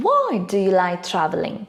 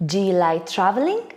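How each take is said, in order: First: "Why" stressed, then dropping through "traveling"; wh-question tune, falling on "traveling"; falling intonation. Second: Quick question lifting on "traveling"; yes-no question tune, rising on "traveling"; rising intonation. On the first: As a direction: hit Why, let traveling fall. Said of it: "and drops in the second". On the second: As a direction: let the voice climb at the end on traveling. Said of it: "my intonation rises in the first". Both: Shown as a demonstration.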